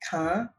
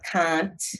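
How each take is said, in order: First: The word ends without a t sound. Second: The word ends with an audible t sound. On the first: "but can" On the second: "not can't"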